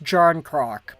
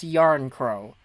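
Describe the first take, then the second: First: The name starts with a J sound. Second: The name starts with a Y sound. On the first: The speaker calls it wrong. "It looks like it's pronounced Jarn Croc" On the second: The speaker calls it right. "but it's Yarn Crow"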